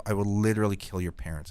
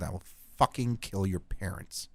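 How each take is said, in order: First: Said in the usual way. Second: The threat again, softer and menacing; quiet threat. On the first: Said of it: "I say". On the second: Retold or imitated. Telling the fan kid to stay away, quietly menacing. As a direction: drop the voice and lean into the threat. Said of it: "And I said".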